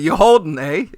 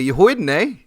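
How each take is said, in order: First: The word sounds like holding, with the l. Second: The word sounds like hoiden, without the l. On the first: "instead of you holding" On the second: "hoiden is the way the Canadians say it"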